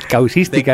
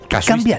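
First: The word starts with the sounds 'caus'. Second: The word starts with the sounds 'casu'. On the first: This is the form the other person used. The speaker calls it wrong. "Causística, has dicho" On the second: This is the form the dictionary has. The speaker calls it right. "Ellos tienen casuística"

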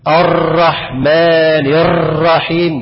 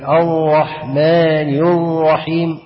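First: The r sound is trilled with many taps. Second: The r sound has almost no trill. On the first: "بالغ في الايه؟ في التكرير، فولد ايه؟ راءات عديده" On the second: "اخفاها، ده غلط"

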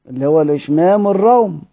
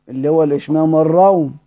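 The two takes are said the same way.

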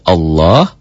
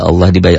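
First: The word has a dark, full, rounded vowel. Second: The word has a light, thin, bright vowel. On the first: "tebal berbunyi Allah, berbunyi O, tebal" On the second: "Berbunyi Allah berbunyi tipis"

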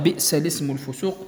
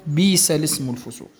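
First: A glottal stop is pronounced in the first word. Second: No glottal stop; a long i sound instead. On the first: "عوض بئس الاسم الفسوق" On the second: "هذا إبدال"

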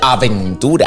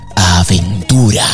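First: The word is said quickly and loosely. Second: The word is said slowly with clear syllables. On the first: The speaker calls it wrong. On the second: The speaker calls it right.

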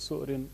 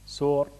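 First: A glottal stop closes the first syllable. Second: The glottal stop becomes a long vowel. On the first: "عينه همزة ساكنة" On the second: "بإبدال الهمزة حرف مد"

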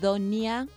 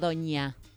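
First: The middle sound is n followed by i. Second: The middle sound is a single ñ sound. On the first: The speaker calls it right. "es Doña ... Es con N-I" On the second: The speaker calls it wrong. "y no Doña"

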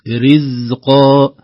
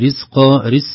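First: The z sound is fully voiced without breath. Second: The z sound is breathy with air flowing. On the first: The speaker calls it right. "الزاي ليس مهموسا" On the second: The speaker calls it wrong. "لو لم ننتبه سنقول"

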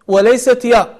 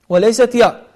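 The two takes are said the same way.

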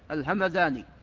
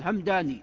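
First: The middle consonant is a voiced th sound. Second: The middle consonant is a plain d sound. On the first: The speaker calls it right. "لا، الهمذاني" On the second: The speaker calls it wrong. "هناك من يقول الهمداني، لا"

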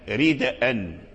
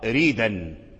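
First: The word keeps a glottal stop before the final vowel. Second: The word has no glottal stop; the consonants run together. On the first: The hamza is kept in the word. "وقرأ الباقون من القراء السبعة والعشرة" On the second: The hamza is dropped and its vowel moves to the consonant before it. "حركوا الدال بحركة الهمز وحذفوا الهمزة، فقرأ ريدا"

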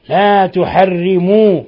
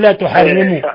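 First: The final vowel is held long as a full u. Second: The final vowel is cut short like a fatha. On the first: The speaker calls it right. "عندك واو جماعة يا أخي" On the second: The speaker calls it wrong. "لا تقول لا تحرموا، أنت تجعلها فتحة"

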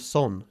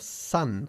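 First: The vowel is a rounded Spanish-like 'o'. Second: The vowel is an unrounded 'uh' sound. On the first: The speaker calls it wrong. "No se pronuncia son" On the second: The speaker calls it right. "sino son"

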